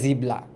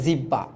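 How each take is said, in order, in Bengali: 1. মাঝে b, তারপর l। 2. মাঝে দ্বিত্ব b ধ্বনি। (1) "অনেকে আবার এক্সট্রিম পর্যায়ে যায়" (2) "অনেকে বলে জিব্বা"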